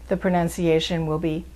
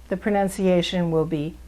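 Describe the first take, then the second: No difference in how they are said.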